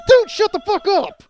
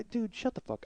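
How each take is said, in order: First: High, loud, drawn-out outburst; exasperated yell. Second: High, soft, strained plea; hushed exasperation. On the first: To the stranger spoiling Inception, exasperated yell. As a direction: explode at someone who won't stop talking. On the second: To the stranger who keeps talking, hushed exasperation. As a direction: plead quietly for them to stop. Same plea, held back. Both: Acted.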